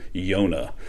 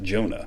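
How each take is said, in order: First: The name begins with a Y sound. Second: The name begins with a J sound. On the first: This is the original Hebrew form. "the Hebrew word for dove is the word" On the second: This is the English form. "In English, we would pronounce it"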